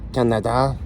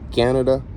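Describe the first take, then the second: First: It is said with a Spanish accent. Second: It is said with an English accent. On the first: This is how other people mispronounce the name. The speaker calls it wrong. "instead of Canada" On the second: This is how the name should be said. The speaker calls it right. "Until you can say Canada instead of"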